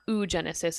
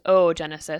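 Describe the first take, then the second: First: The start is one single vowel sound. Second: The start is two separate O sounds. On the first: The speaker calls it wrong. "it's not oogenesis" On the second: The speaker calls it right. "prolong the O or almost do a glottal stop and make it sound like you're saying two of the O sound in a row"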